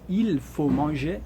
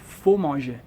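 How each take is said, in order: First: The word il is pronounced before faut. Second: The word il is left out before faut. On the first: This is the full written form. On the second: This is everyday native speech. "mas o nativo fala"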